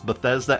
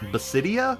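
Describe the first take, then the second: First: The middle is said with a 'thes' sound. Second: The middle is said with a 'sid' sound. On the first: The speaker calls it right. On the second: The speaker calls it wrong.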